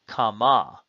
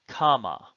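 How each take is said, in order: First: The stress is on the last syllable. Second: The stress is on the first syllable. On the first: It is a feminine singular participle. "the accent will be on the final syllable" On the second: It is a third feminine singular perfect. "the accent will be on the first syllable"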